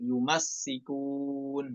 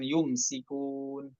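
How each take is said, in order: First: A vowel follows the m; the s is doubled. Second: No vowel follows the m; the s is single. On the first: The speaker calls it right. "Mimnya fathah, kemudian sinnya tasydid" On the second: The speaker calls it wrong. "bukan yumsikun"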